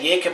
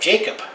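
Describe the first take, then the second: First: Jacob is given a European pronunciation. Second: Jacob is given a North American pronunciation. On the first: "that's the European way of saying it" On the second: "that's the North American way of saying it"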